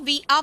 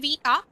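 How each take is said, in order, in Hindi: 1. ये दोनों शब्द मिलकर छोटे हो जाते हैं। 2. ये दोनों शब्द पूरे और साफ़ बोले जाते हैं। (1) "हम इसको वी आर बोलेंगे" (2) "बिल्कुल साफ नहीं बोलेंगे"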